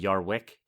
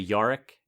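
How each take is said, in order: First: The name is said with a w sound. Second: The name is said with no w sound. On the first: This is how the host usually says it. "instead of Yarwick" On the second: This is how a British person says it. "so you would say Yorick"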